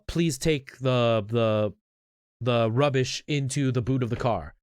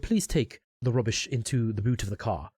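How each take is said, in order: First: It is spoken in a Canadian accent. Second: It is spoken in a British accent. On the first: "I'm still saying it in a Canadian accent" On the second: "now I've said it with a British accent"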